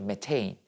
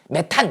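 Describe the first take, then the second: First: The word ends in a 'tein' diphthong sound. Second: The word ends in a short 'tan' sound. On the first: This is the newer English-style reading. "표기법이 바뀐 거야. 영어식으로" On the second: This is the older reading. "옛날엔 다 메탄 이렇게 읽어요"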